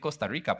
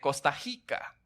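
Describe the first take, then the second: First: The r in Rica sounds like a Spanish r. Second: The r in Rica sounds like a breathy h. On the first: This is the speaker's habitual way. "voy a decir Costa Rica" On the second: This is how it is said in Portuguese. "en portugués la R se dice eji"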